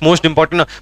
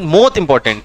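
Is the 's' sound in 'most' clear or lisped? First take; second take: clear; lisped. First: The word most is said with a clear s. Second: The word most is lisped, sounding like mot. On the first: "बोलना होगा मोस्ट मोस्ट मोस्ट important" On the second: "थोड़ा तूतला बोलते थे"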